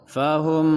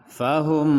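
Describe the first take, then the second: The two takes are said the same way.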